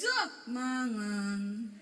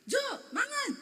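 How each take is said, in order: First: "Jo, mangan" very slow, sunk low and drawn out; exaggerated slow Javanese-style "Jo, mangan"; Javanese lowered tone. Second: High-pitched call on "Jo, mangan"; "Jo, mangan" in a high, lively Sulawesi tune; Sulawesi intonation. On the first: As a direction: stretch "mangan" out on a low, careful tone. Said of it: "nadanya belakang turun". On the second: Retold or imitated. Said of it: "nada belakangnya naik".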